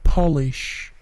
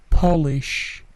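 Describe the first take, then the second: The two takes are said the same way.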